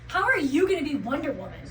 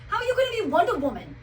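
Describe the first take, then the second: First: It is said in the speaker's plain accent. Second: It is said in a New York accent.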